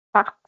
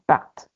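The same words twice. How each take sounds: First: "Part" dicho como /par/, sin sonar la t final; "Part" con la t muda, como en il part. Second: "part" con la t final sonora y reforzada, /part/, como en ils partent. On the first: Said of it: "Con T". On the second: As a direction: refuerza la última consonante de "part". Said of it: "sí pronuncio la T". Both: Shown as a demonstration.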